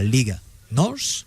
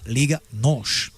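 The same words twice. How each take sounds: First: Nos ends with a plain s sound. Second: Nos ends with an sh sound. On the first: The speaker calls it wrong. "le Portugal ne dira pas" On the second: The speaker calls it right. "les Portugais prononcent che"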